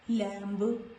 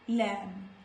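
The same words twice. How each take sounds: First: The final B is pronounced. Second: The final B is silent. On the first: The speaker calls it wrong. "not lamb" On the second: The speaker calls it right.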